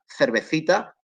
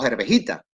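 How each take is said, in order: First: The c sounds are said as th. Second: The last c sound is said as h.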